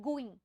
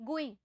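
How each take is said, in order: No difference in how they are said.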